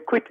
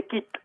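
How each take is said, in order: First: Said in the usual way. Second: "quitte" said as "keet", with no w sound and a tight ee vowel; French "quitte", dropping the w, like "kit". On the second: Shown as a demonstration. Explaining to the host how the French say "quitte". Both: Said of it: "that's the way they pronounce it".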